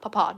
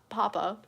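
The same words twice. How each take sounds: First: It is said with a British pronunciation. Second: It is said with a non-British pronunciation. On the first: The speaker calls it right. "the British version of papa. Just like papa" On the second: The speaker calls it wrong. "not papa"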